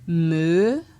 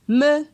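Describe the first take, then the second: First: The syllable is said on a rising tone. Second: The syllable is said on a mid tone. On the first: "pour un ton montant" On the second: "ton moyen"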